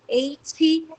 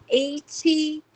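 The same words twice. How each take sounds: No difference in how they are said.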